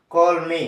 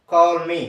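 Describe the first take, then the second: First: కాల్ మీ again as kolmi, loud; Finnish word repeated, loud. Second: కాల్ మీ said as kolmi, loud and clear; Finnish word, louder. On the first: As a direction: repeat కాల్ మీ as kol-mi, loudly. (గట్టిగా మళ్ళీ కాల్ మీ) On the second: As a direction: announce కాల్ మీ as kol-mi. (గట్టిగా కాల్ మీ అని పలకడం) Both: Shown as a demonstration. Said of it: "కాల్ మీ అంటారు".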